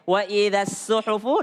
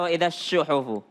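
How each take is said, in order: First: The word suhufu begins with an s sound. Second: The word suhufu begins with a sh sound. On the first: The speaker calls it right. "lebih baik wa idza suhufu" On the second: The speaker calls it wrong. "daripada wa idza syuhufu"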